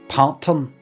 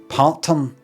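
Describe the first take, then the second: First: The first syllable sounds like 'part'. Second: The same.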